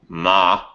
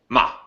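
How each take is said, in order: First: The pitch goes up and then down. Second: The tone is short and clipped. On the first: "there's a up and down" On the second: "a short tone"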